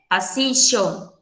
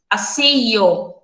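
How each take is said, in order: First: The double L sounds like an sh sound. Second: The double L sounds like a y sound. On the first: "com som de X" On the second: "como se fosse um, um I, um Y"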